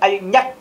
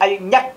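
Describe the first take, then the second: First: The middle consonant sounds like an n. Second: The same.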